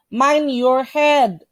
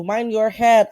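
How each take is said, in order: First: "Mind your head" drawn out word by word; slow, careful model. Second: Said in the usual way. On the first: Shown as a demonstration. Teacher models a sign phrase for students, slowly. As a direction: read it slowly for learners to copy. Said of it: "teacher models warning sign". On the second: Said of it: "teacher repeats in passing".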